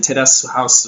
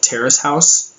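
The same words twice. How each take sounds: First: "Terrace House" said the Japanese way, tapped r and held t; "Terrace House" as Japanese katakana, te-ra-su hau-su; Japanese pronunciation. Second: Said in the usual way. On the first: Shown as a demonstration. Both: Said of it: "or in Japanese accent".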